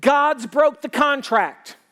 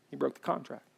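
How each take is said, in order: First: God's broke the contract, dragged out slow and loud with a hard fall on broke; loud, slowed-down hurt complaint; slow bitter accusation. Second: He broke the contract, said softly and plainly; quiet restatement. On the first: Retold or imitated. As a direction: spell out the grievance word by word, slow. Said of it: "You know what they're saying?". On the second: Shown as a demonstration. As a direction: drop the voice and just name it. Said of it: "You're mad at God".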